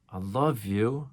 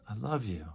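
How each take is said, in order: First: Slow tender I love you. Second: Soft I love you. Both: Shown as a demonstration. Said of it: "in twenty different ways".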